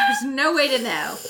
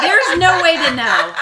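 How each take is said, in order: First: Said in the usual way. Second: Laughing. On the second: Real, not acted. Laughing repeat of own line.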